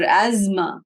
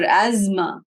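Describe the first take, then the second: First: It is said the way Westerners say it. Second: The same.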